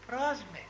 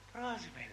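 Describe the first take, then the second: First: Προς με said higher, with weight on προς; emphatic προς με; stressed repeat. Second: Said in the usual way. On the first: Shown as a demonstration. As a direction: lift and lean on προς in the repeat. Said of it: "λέει".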